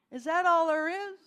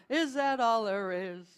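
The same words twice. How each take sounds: First: Loud, spoken rhetorical question; emphatic question. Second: Loud half-sung question, falling; sung, sliding into song. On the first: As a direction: ask it out loudly to the room. Rhetorical question repeated before the song. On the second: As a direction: let the question sink toward singing. Same question leads into song. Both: Shown as a demonstration.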